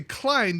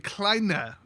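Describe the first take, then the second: First: The final vowel is silent. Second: The final vowel is pronounced. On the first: The speaker calls it wrong. "you wouldn't say Klein" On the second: The speaker calls it right. "you'd say Kleine if it has an E on the end"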